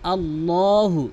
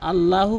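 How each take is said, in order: First: The L is heavy, with rounded lips. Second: The L is light, with unrounded lips. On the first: The speaker calls it right. "মুখ গোল করে, দুই ঠোঁট গোল করে" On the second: The speaker calls it wrong. "আল্লাহু আল্লাহু বলা যাবে না"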